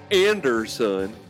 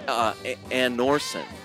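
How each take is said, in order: First: The name has a clear D sound. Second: The name has no clear D sound. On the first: "which we see it, Americans, as Anderson" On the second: "It's not an obvious D in the pronunciation of that"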